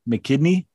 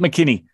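First: The name is said slowly. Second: The name is said quickly. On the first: The speaker calls it wrong. "You just say it too slow" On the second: The speaker calls it right. "Yep, that's it"

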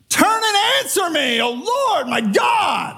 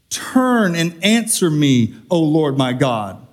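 First: It is read forcefully, like an exclamation. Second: It is read calmly, without force.

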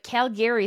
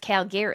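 First: The 'gary' part is said fully and overemphasized. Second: The 'gary' part is said lightly and reduced. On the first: The speaker calls it wrong. "Calgary sounds like you're trying too hard to be like, there's a Gary in there" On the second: The speaker calls it right. "It's Calgary"

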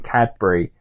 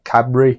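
First: The D in the middle is clearly pronounced. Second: The D in the middle is dropped. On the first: "most everyone else says the D in it" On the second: "the Brummie's like Cadbury"

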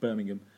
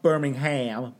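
First: The name is said with a British accent. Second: The name is said with an American accent. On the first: This is the speaker's home city in the UK. The speaker calls it right. "a certain city here in the UK, my hometown" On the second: This is the city elsewhere, not the one meant. The speaker calls it wrong. "Not Birmingham"

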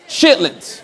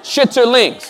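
First: The word is shortened to two syllables. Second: The word is said with three full syllables. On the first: This is how it is said in the South. "Now let me move down south" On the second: This is how it is said in California. "I'm pronouncing it correctly, okay? From California"

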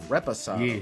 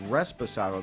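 First: The word has no extra S sound. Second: The word has an extra S sound. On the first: The speaker calls it right. "There's no S. It's" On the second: The speaker calls it wrong. "I mispronounced that. I said Reposado"

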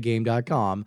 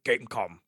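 First: The name is said with "dot" between the parts. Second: The name is said as one word without "dot". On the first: This is how a web-savvy person reads the name. The speaker calls it right. "anyone who's mildly internet literate would say game.com" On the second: This is how the console's own voice says the name. The speaker calls it wrong. "it says in a voice like Gamecom"

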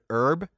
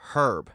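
First: The h at the start is silent. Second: The h at the start is pronounced.

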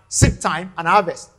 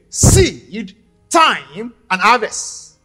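First: The phrase runs together without pauses. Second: Pauses separate seed, time, and harvest. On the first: It names the season of sowing and reaping. "We just say it as seed time and harvest" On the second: A period of time lies between sowing and reaping. "But you can also say it this way"

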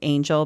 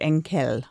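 First: The name is read like the spelled English word. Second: The name is read unlike the spelled English word. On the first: The speaker calls it wrong. "It's like spelled angel" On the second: The speaker calls it right. "but it's Angel"

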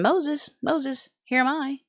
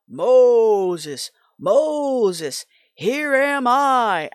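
First: It is said in a plain, undramatic voice. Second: It is said in a big, strong voice.

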